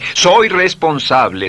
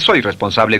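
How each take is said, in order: First: It is said warmly, full of feeling. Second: It is said flatly, without feeling. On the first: The speaker calls it right. "dice soy responsable, emociónelo" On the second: The speaker calls it wrong. "no dice soy responsable"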